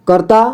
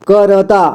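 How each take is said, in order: First: Said in the usual way. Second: "करता" split as ka-ra-taa; slow beginner's reading of "करता" as ka-ra-taa; sounded out letter by letter. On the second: Shown as a demonstration. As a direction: spell out "करता" with every letter voiced. Teacher sounds out, then reads whole.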